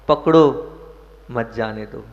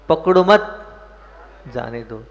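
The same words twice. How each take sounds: First: The pause comes right after 'pakdo'. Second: The pause comes right after 'mat'.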